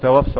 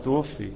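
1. يبدأ الفعل بـ 'ta' وينتهي بـ 'a' الطويلة. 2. يبدأ الفعل بـ 'tu' وينتهي بـ 'i'. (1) "وقول توفى. هو طبعا ما توفاش" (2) "هو توفي"

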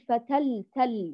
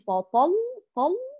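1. الطاء واللام مرققان. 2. الطاء واللام مفخمان. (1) "ونرقق التاء واللام" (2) "ونفخم الطاء واللام"

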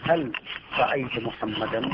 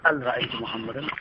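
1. تبدأ الكلمة الأولى بصوت الهاء. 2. تبدأ الكلمة الأولى بالهمزة. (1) "تقول هل رأيت محمدا" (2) "فتبدل الهاء همزة"

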